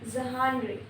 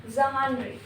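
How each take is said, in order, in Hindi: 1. शब्द 'zh' ध्वनि से शुरू होता है। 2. शब्द 'zh' ध्वनि से शुरू होता है।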